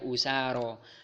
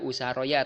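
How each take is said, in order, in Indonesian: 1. Kata ini berakhir dengan vokal panjang biasa. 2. Kata ini berakhir dengan suku kata ya tambahan. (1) "tapi dibaca usaro" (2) "tidak dibaca usaroya"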